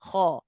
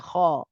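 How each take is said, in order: No difference in how they are said.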